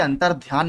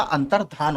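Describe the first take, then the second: First: अंतर्ध्यान said with a ध्य cluster, the wrong spelling; wrong form shown. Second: अंतर्धान said with plain ध, no y glide; correct form shown. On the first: Teacher shows students the wrong form, अंतर्ध्यान with dhya. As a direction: show the error: अंतर्ध्यान with dhya. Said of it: "अंतर्ध्यान नहीं होता". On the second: Teacher gives students the correct form, अंतर्धान with plain dha. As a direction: give the right form: अंतर्धान, clean dha. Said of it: "अंतर्धान होता है". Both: Shown as a demonstration.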